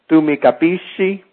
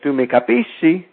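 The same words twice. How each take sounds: First: "Tu mi capisci" stated as a fact, not rising; "Tu mi capisci" with a falling statement tune. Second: "Tu mi capisci?" asked as a question, with the tune on "capisci". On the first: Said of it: "is just a fact". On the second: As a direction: turn "Tu mi capisci" into a question with your intonation alone. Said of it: "But if you say it". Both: Shown as a demonstration.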